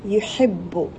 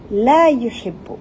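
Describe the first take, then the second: First: Said in the usual way. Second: La stressed, slow and louder. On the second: Shown as a demonstration. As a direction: lean on La, falling. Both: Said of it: "le la, ça veut dire non".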